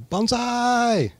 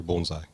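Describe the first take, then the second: First: High, loud drawn-out war cry; battle yell. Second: BONSAI in a normal voice, long o, "bone-sigh"; correct pronunciation. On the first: Acted. Bonsai teacher demonstrating the cry before battle, high loud yell. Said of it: "you yell". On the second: Shown as a demonstration. Teacher naming the little trees, BONSAI pronounced "bone-sigh". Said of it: "the little trees and trays are bonsai".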